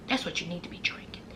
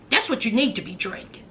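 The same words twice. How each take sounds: First: Soft, fast hushed repeat. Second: Said in the usual way. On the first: Shown as a demonstration. Host to viewers, a quick hushed aside. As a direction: murmur it again under your breath, quick. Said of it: "plain first take". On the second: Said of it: "whispered repeat".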